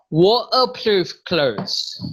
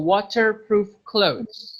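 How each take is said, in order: First: The t in water is dropped entirely. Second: The t in water is a clear t. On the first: "more Scotland... itu nggak pakai T" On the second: "if you prefer to be British... you could just say with T"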